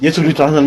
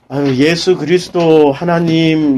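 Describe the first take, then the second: First: It is said very fast, rattled off. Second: It is said at a slow, normal pace.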